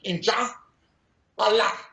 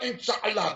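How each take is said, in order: First: It is split into two separate words. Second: It is run together as one word. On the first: The speaker calls it right. "Two separate words in Arabic" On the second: The speaker calls it wrong. "It's not inshallah"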